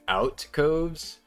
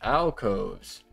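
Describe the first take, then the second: First: The first syllable sounds like 'out'. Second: The first syllable sounds like 'al'. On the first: The speaker calls it wrong. "have I been saying that wrong my entire life?" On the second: The speaker calls it right. "Alcove, is that right?"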